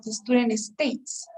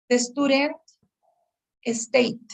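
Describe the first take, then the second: First: Slow, careful "states" with a crisp S at the end; slow model answer with a crisp S in "states"; clear final S. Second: "state" said with no final S sound, like "stayt"; mimicking a learner who says "state" without its S; dropped S. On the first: Shown as a demonstration. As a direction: overpronounce the S in "states". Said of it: "instead of". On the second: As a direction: imitate the student and leave the S off "state". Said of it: "a problem with pronouncing the S in the words".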